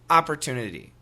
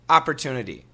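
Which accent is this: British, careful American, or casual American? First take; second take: casual American; casual American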